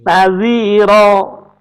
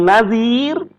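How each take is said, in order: First: The word ends with a long vowel. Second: The word ends with a consonant. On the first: The speaker calls it right. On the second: The speaker calls it wrong. "Kalau diwakofkan bukan nazir"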